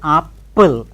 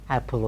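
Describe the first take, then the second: First: The p sound is held long, doubled. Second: The p sound is short, said once. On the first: The speaker calls it wrong. "We don't say apple" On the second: The speaker calls it right. "no doubling of p sounds, apple only"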